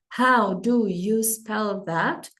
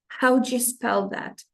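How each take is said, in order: First: Each word is said carefully and separately. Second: The words run together quickly and smoothly.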